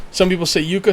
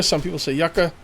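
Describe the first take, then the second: First: Yucca said YOO-kuh; alternate pronunciation. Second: Yucca said YUCK-uh; short "yuck" at the start of yucca; common pronunciation. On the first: Player showing one camp's way, yucca as YOO-kuh. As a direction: stress a long "yoo" at the start of yucca. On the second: Player showing the other camp's way, yucca as YUCK-uh. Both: Shown as a demonstration.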